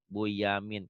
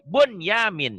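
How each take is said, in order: First: The n merges into the following y sound. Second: The n is clearly pronounced before the y. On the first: The speaker calls it wrong. "Kenapa kok bacanya Buyamin? Kan itu nun mati ketemu ya idgham" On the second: The speaker calls it right. "tidak dibaca idgham jadi idhar, idhar mutlak"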